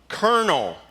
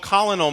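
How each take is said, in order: First: It is said with an R sound, like kernel. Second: It is said as spelled, with an L sound. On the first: "got an R sound with no R letter" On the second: "that's what phonics told us to call him"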